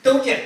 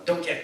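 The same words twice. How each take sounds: First: Higher and louder don't you; loud, high pressing repeat of don't you; insistent repeat. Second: Said in the usual way. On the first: Real, not acted. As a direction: demand an answer with a punchy don't you. Repeated tag question to crowd.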